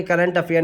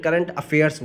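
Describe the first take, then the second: First: "current अफेयर" said without a final s, as the wrong form. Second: "current अफेयर्स" with a clear s at the end of "अफेयर्स"; correct plural with s. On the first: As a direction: end "अफेयर" on r, no s. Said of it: "current अफेयर नहीं बोलेंगे". (ग़लत रूप: "अफेयर" बिना s के) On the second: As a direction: land the final s of "अफेयर्स". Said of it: "current अफेयर्स बोलेंगे". (सही रूप: "अफेयर्स" के अंत में साफ़ s) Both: Shown as a demonstration.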